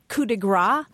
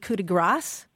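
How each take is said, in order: First: The last word ends without an s sound. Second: The last word ends with an s sound. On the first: It means a blow of fat. The speaker calls it wrong. "a lot of people say coup de grace" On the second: It means the stroke of mercy. The speaker calls it right. "when it's actually coup de grace"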